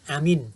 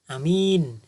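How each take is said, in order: First: Both vowels are short. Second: The first vowel is short, the second long. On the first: It means safe and peaceful. "Jadi A pendek, min pendek" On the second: It means trustworthy. "Jadi A-nya pendek, min-nya panjang"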